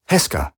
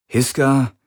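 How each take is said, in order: First: Heska said with a short open e, falling, settled; right name. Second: Hiska said with a clear i, a doubtful first guess; wrong name. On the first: Galen recalling his captor's name, settled correction. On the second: Galen guessing his captor's name, uncertain. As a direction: try Hiska as an uncertain question. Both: A narrator's reading.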